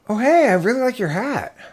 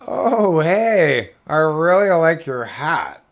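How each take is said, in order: First: It sounds sincere and complimentary. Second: It sounds mocking and sarcastic.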